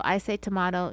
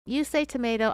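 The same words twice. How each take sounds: First: "tomato" with a broad ah sound, toe-MAH-doe; tomato said tomahto. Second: "tomato" with a long ay sound, toe-MAY-doe; tomato said tomayto. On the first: Host answering the saying, "tomato" as toe-MAH-doe. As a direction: say "tomato" the British way, MAH in the middle. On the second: Host quoting the old saying, "tomato" as toe-MAY-doe. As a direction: say "tomato" the American way, MAY in the middle. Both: Shown as a demonstration. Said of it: "You say tomato, I say tomato".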